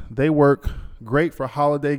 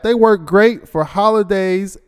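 First: Said in the usual way. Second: Higher and louder, slowed for show; emphatic reread. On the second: Shown as a demonstration. Host rereading the ad line with playful emphasis. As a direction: reread it with gusto, slowly. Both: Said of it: "Look at that".

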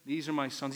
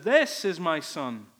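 First: Said in the usual way. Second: "This" leaned on, louder and slow; stress on THIS. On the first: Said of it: "He doesn't say". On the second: Acted. Preacher stressing that it's singular, "This" punched slowly. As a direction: hit "This" hard, then slow down through the line. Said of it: "Notice that it's singular".

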